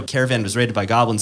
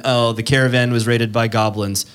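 First: Said in the usual way. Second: Dull, flat plain report; boring delivery. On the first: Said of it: "but, you know". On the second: Shown as a demonstration. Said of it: "what's more boring than".

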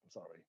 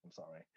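First: Much softer, low mumbled sorry; insincere, under the breath; forced apology to the officers; grudging apology. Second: Very soft throwaway sorry; muttered insincere apology; half-hearted sorry. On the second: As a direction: say it without meaning it. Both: Retold or imitated. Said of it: "it wasn't even, like, a heartfelt".

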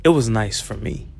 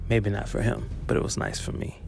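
First: Said in the usual way. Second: Whispered aside. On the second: Real, not acted.

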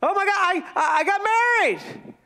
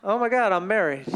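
First: High, gushing newlywed thrill; excited. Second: Low, sinking mock dismay; deflated. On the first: Acted. Newlywed announcing the wedding, excited. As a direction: burst out with hammed-up delight. Acting newlywed joy, then letdown. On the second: Married person realizing what happened, deflated. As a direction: let the voice drop as reality lands. Acting the letdown after the wedding.

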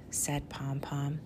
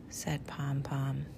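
No difference in how they are said.

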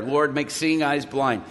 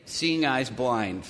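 First: Said in the usual way. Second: Quiet prayer. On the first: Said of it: "that's why I say that prayer". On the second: Retold or imitated. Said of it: "you see me pray at one point".

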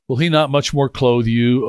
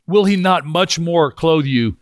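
First: Said in the usual way. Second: Slow, with "Will" and "much more" weighted; slow down and lean on "much more"; stress on will and much more. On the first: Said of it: "This is really bad grammar". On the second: Shown as a demonstration. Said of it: "these two words that he says".

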